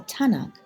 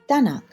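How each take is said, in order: First: The word begins with a t sound. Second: The word begins with a d sound. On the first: This is the Western Armenian form. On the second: This is the Eastern Armenian form.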